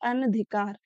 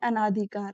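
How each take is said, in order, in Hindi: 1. दूसरे अक्षर में छोटा स्वर है। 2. दूसरे अक्षर में लंबा 'aa' स्वर है। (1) "शुद्ध क्या होता है?" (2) "आ की मात्रा लगा के पढ़ते हैं, ये बिल्कुल गलत होता है"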